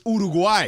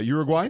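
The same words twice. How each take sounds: First: The name is said with Spanish sounds. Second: The name is said with English sounds. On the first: The speaker calls it right. "you said it right" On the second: The speaker calls it wrong. "I anglicized it"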